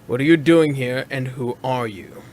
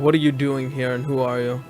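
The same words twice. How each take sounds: First: It is said more slowly. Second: It is said at a normal pace.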